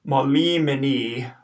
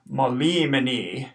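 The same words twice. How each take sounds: First: "molimini" at normal pace; first take of "molimini"; modelled Latin word. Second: "molimini" slower, long i, short i, long i; repeated "molimini"; careful Latin pronunciation. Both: Shown as a demonstration. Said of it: "the first I in the word is long".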